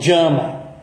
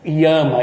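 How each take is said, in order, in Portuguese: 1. A palavra começa com som de j. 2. A palavra começa com som de y. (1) "eles falam Jama" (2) "Os bengalis não pronunciam o Y como no sânscrito"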